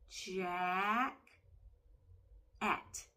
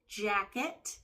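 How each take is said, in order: First: The word is said with a break between syllables. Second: The word is said smoothly without a break. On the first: "Let's pull apart the syllables we hear in jacket" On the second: "Next word"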